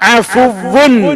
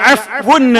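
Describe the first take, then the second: First: The w sound is doubled and held longer. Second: The w sound is short and single. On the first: The speaker calls it right. "വാവിന് ശദ്ദും ഡബിൾ ലമ്മുമായിട്ടാണ് ഉച്ചരിക്കേണ്ടത്" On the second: The speaker calls it wrong. "പല ആളുകളും അല്ലാഹുമ്മ ഇന്നക അഫ്വുൻ എന്ന് പറയാറുണ്ട്"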